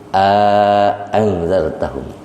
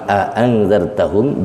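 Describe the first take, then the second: First: Both glottal stops are said, with a medium lengthening. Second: Both glottal stops are said, with no lengthening. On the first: "bil maddi ... Madinya dua harkat" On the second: "bi ghairil maddi"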